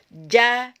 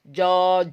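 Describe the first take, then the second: First: The vowel sounds clear and forward. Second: The vowel sounds dark and held back. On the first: The speaker calls it right. "suara keluar di luar sini karena dia merupakan huruf tipis" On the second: The speaker calls it wrong. "Bukan jo, ji, ju ... Tidak seperti itu"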